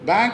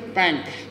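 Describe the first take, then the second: First: The word begins with a b sound. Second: The word begins with a p sound. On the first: The speaker calls it right. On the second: The speaker calls it wrong.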